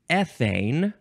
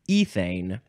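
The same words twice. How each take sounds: First: It is said with an American pronunciation. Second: It is said with a British pronunciation.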